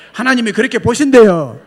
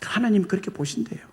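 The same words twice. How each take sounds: First: Much louder, stress on 보신대요; building to a shout. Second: Said in the usual way. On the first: Real, not acted. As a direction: shout 보신대요 to the back row. Third take loudest. (크게 외치며)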